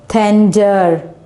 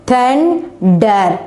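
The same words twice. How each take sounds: First: Said in the usual way. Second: "Thunder" split into two beats with a gap; syllable division. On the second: Shown as a demonstration. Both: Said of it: "We just divided into two syllable".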